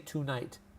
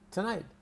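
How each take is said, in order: First: The first syllable has a full 'too' vowel. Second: The first syllable is reduced to a quick 'tuh'. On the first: The speaker calls it wrong. "we don't say tonight" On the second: The speaker calls it right. "We all say tonight"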